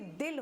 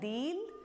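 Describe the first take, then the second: First: The i vowel is said short. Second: The i vowel is said long. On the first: It is written with the short i sign. "हमने short में बोला है" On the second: It is written with the long i sign. "यहाँ पर बड़ी की मात्रा है"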